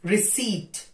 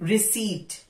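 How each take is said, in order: No difference in how they are said.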